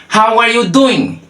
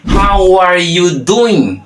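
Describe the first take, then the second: First: Higher-pitched, words run together; connected demonstration. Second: Very drawn out and higher; slow demonstration. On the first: Teacher repeats the second phrase for learners, connected demonstration. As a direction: model the phrase in one sweep. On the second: Teacher introduces the second way of asking, slow demonstration. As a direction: stretch every word out for learners. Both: Shown as a demonstration.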